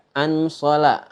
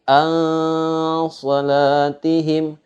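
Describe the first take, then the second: First: "an sola" spoken with a distinct, short n; clear n, not ikhfa. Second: "an salatihim" chanted high and slow, n held as a blurred hum; veiled ikhfa n. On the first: Teacher shows the wrong reading, "an sola" with a clear short n. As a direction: say "an sola" quickly with a crisp, unblended n. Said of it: "Bukan dibaca". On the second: Teacher corrects the reading, "an salatihim" with a long veiled n. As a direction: stretch "an" into a long masked nasal, then chant "salatihim". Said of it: "cara bacanya samar". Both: Shown as a demonstration.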